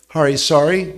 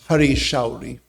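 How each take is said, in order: First: The second word starts with a plain s sound. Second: The second word starts with a sh sound. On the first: The speaker calls it wrong. "The pronunciation of that name is very sorry" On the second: The speaker calls it right. "It's Hari Shauri"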